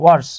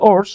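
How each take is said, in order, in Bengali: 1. শব্দটি স্পষ্ট w উচ্চারণ দিয়ে শুরু হয়। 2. শব্দটি একটি সাধারণ স্বরবর্ণ দিয়ে শুরু হয়, w নেই। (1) "উচ্চারণ হচ্ছে ওয়ার্স" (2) "আমরা অনেকে বলি ওর্স"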